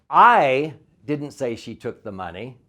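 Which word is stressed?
I. The word I is stressed.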